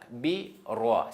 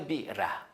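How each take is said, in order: First: The r is said heavy with rounded lips. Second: The r is said light with an open mouth. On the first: The speaker calls it right. "il faut fermer la bouche quand on prononce le lettre roi avec accent A" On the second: The speaker calls it wrong. "c'est pas bi ra"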